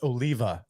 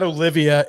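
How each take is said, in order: First: The name is said with three syllables. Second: The name is said with four syllables. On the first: The speaker calls it right. "It's Oliva" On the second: The speaker calls it wrong. "it's not Olivia"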